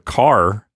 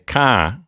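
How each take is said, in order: First: The final R sound is pronounced. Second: The final R sound is dropped. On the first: "instead of car" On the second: "I might say ka"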